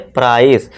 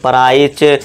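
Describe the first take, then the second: First: The word ends with a plain s sound. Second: The word ends with a ch sound. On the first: The speaker calls it right. "अब हम normal सा वाला sound देंगे" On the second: The speaker calls it wrong. "इसे हम प्राइच या प्राइसे या प्राइक नहीं पढ़ेंगे"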